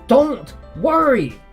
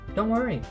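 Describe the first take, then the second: First: It is yelled loudly in an angry way. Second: It is said in a soft, consoling way. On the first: The speaker is furious at the listener. "a very angry expression there. I'm yelling. It's very loud" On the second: The speaker is trying to reassure people. "she's trying to console people"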